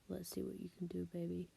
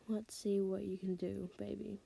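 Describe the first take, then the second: First: It is said in a deep, seductive voice. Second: It is read in a plain, ordinary voice.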